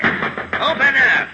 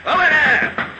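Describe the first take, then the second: First: Slow, drawn-out call, a bit higher; calling through door. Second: Sharp high shout, much higher; shouting through door. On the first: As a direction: call out slowly to whoever is inside. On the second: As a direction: bang on the door and yell it. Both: Acted. Inspector pounding on a door.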